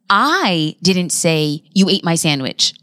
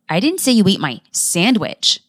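First: The stress falls on the word "I". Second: The stress falls on the word "sandwich". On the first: Someone else said it. "When you emphasize I" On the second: Something other than the sandwich was eaten. "When you emphasize the word sandwich"

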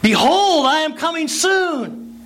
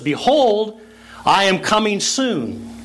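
First: It is said with somewhat more energy. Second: It is said calmly at normal volume.

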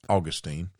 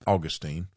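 First: It is said with a Southern US pronunciation. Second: The same.

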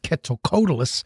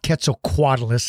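First: The second part has no extra kw sound. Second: The second part starts with an extra kw sound. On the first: The speaker calls it right. "It's Quetzalcoatlus" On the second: The speaker calls it wrong. "There's not a second Q in its name. I say Quetzalcoatlus a lot, but it's not Quetzalcoatlus"

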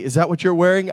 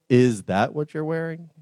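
First: It sounds friendly and curious. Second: It sounds critical and disapproving.

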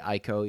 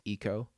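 First: The name begins with an 'eye' sound. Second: The name begins with an 'ee' sound. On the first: This is how the speaker habitually says it. The speaker calls it wrong. "I also say Aiko" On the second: This is the developers' official pronunciation. The speaker calls it right. "apparently it's Eco"

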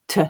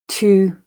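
First: The vowel is reduced to a schwa. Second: The vowel is full and unreduced. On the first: "just thinking about the ones with schwa" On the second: "I'll read the strong and weak form"

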